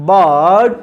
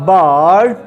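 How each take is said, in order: Both takes have the same delivery.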